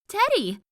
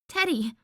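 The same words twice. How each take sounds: First: It is shouted as loud as possible. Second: It is said a little louder.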